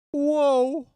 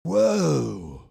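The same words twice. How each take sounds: First: Very high, loud sitcom whoa; Joey Lawrence whoa. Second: Loud, stretched-out stunned whoa; a dazed surfer-dude whoa, blown away; Keanu Reeves whoa. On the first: Streamer answers the super chat with a loud, very high Joey Lawrence whoa. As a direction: squeal it out like a nineties sitcom catchphrase. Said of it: "That one's more like". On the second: Streamer answers a super chat's request with a loud Keanu Reeves whoa. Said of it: "my best Keanu Reeves voice". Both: Shown as a demonstration.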